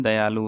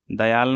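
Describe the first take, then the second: First: Said in the usual way. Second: दयाल ending on the l; missing final u. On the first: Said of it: "होता है". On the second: Shown as a demonstration. Teacher showing the wrong form, दयाल without final u. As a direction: leave the "u" off दयाल. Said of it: "नहीं है".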